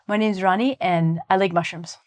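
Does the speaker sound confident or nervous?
confident. The voice sounds calm and confident.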